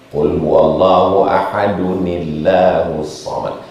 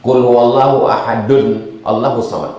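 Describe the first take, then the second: First: The words are linked by an added 'ni' sound. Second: The two words are said separately, without linking. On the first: The speaker calls it right. "Maka datang nun wiqayah namanya" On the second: The speaker calls it wrong. "tak bisa dibaca"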